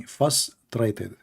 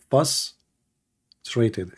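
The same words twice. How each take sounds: First: Said in the usual way. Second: Frustrated split as fuss plus trated, first part leaned on; Frustrated broken into fuss and trated, slowly drawn out; syllables pulled apart. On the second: Shown as a demonstration. Joking to viewers about the Arabic fuss, drawn-out syllables. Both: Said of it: "In Arabic, fuss".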